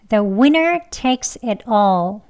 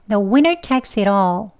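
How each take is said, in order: First: The phrase is said slowly. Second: The phrase is said fast with linked words. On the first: "천천히 두 번 할게요" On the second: "숨참기 하지 마시고요. 여기 연음에서요"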